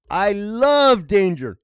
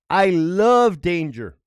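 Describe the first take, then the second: First: I love danger stretched slow and louder; slow loud declaration. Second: Slow, louder, savoring each word; I love danger drawn out like a motto; slow declaration. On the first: Vlogger repeating his creed, slower and louder. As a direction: lean into it like a catchphrase. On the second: Vlogger to viewers, announcing his creed slowly. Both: Real, not acted. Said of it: "I swore in the Bible".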